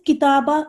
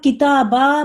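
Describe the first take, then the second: First: The final vowel is cut short. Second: The final vowel is held long. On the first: It means one book. The speaker calls it wrong. "छोटा-सा कर देंगी" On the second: It means two books. The speaker calls it right. "मद्दे असली"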